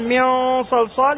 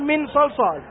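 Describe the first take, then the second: First: The n blends nasally into the following s. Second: The n is pronounced fully and clearly. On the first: The speaker calls it right. "بدل أن يقول" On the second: The speaker calls it wrong. "يظهر في محل إخفاء"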